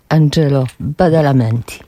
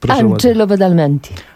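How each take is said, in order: First: The name is said slowly and deliberately. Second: The name is said at normal speed.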